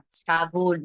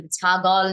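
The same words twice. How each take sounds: First: ছাগল said as chagol; correct pronunciation. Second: ছাগল said as chagɔl; wrong take of ছাগল. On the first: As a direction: say ছাগল with the ending like ও. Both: Shown as a demonstration. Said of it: "ছাগল না".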